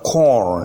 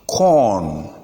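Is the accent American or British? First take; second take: American; British. First: It is said with an American accent. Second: It is said with a British accent. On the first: "but corn in American English" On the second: "pronounced corn in British English"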